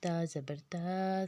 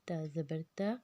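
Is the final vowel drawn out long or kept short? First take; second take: long; short. First: The final vowel is drawn out long. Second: The final vowel is stretched only slightly. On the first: The speaker calls it wrong. "खड़ी ज़बर के करेंगे ... जो कि गलत है" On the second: The speaker calls it right. "बड़ी ज़बर का बिल्कुल थोड़ा खींचना है"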